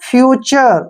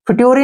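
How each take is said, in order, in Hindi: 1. बीच का व्यंजन ch ध्वनि है। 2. बीच का व्यंजन एक सादा t ध्वनि है। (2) "फिट्योरी नहीं पढ़ना है"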